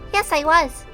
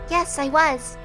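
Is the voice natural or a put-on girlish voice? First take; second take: put-on; natural. First: It is said in a low, girlish put-on voice. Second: It is said in a plain, natural voice.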